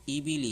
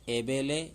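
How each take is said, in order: First: The vowels sound like 'ee' (i). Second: The vowels sound like 'ay' (e). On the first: The speaker calls it right. "ये है मारूफ ... ये ईबिली है" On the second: The speaker calls it wrong. "मजहूल ... जो है गलत ... एबेले नहीं है"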